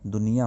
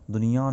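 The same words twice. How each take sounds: First: Said in the usual way. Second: "दुनिया" wrongly ending in a nasal aan; नाक से उच्चारण. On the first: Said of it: "दुनिया होता है". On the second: Shown as a demonstration. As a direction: say "दुनिया" with the last vowel through the nose. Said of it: "दुनिया नहीं होता". ("दुनिया" का गलत अनुनासिक अंत)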